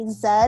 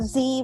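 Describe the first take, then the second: First: It is said the British way. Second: It is said the American way.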